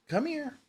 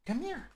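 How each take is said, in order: First: Very high call to a pet; coaxing cat call. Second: Very high, soft calling to a pet; coaxing cat call. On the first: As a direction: sing it out to the cat. Calling the cat over. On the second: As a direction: coo to the cat to come. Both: Real, not acted.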